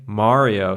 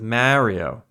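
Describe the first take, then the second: First: Mario is said with a general American vowel. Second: Mario is said with a New York vowel. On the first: "instead of saying Mario" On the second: "like everyone in New York, literally everyone"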